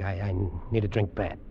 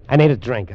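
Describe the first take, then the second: First: Low, soft, stammered plea; faltering, drained and lower; subdued desperation. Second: Sudden loud plea for a drink; loud, desperate blurt; desperate outburst. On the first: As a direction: sink into a weak, needy admission. Same plea repeated, sinking. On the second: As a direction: burst out with urgent need. Shaking man breaks down under pressure. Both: Acted.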